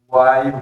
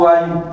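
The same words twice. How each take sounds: First: The word is stretched out only a little. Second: The word is stretched out much longer. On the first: It adds emphasis. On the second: It adds even stronger emphasis.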